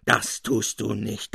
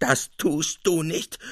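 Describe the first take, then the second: First: Slow, emphatic mild mock shriek. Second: Higher, slow, emphatic mock shriek; shrieking louder. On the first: Capuzzi below shrieking at his double. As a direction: hammer out each word furiously. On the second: Capuzzi below shrieking again at his double. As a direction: push the repeat higher and harder. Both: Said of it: "mit gellender Stimme aufkreischte".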